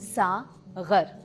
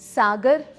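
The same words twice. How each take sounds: First: The middle consonant is a throaty, fricative gh. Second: The middle consonant is a plain hard g. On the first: It is the Urdu word for a wine cup. "जब ग के नीचे नुक्ता लगता है तो वो बन जाता है" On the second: It is the Hindi word for ocean. "सागर हिंदी का शब्द है"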